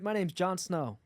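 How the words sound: It is spoken in an American accent. "can you do American?"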